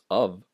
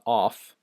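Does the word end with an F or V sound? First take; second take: V; F. First: The word ends with a V sound. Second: The word ends with an F sound. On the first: The speaker calls it right. "The F becomes a V actually" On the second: The speaker calls it wrong. "it's not off"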